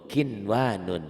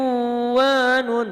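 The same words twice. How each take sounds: First: "kinwanun" with a clear n before wa, at speaking pitch; clear idhar reading. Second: "kiwanun" with the n merged into a long w, loud and high; wrong merged reading. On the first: Teacher shows student the correct reading, "kinwanun" with n and w kept separate. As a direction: say "kinwanun" slowly, sounding the first n distinctly. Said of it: "tapi harus dibaca idhar". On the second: Teacher warns student how not to read, loud stretched "kiwanun" without the first n. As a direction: chant "kiwanun" slowly, gliding from ki into a drawn-out w. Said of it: "Bapak jangan bacanya".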